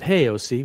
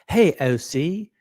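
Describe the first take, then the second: First: It is said in the speaker's ordinary accent. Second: It is said in a British accent.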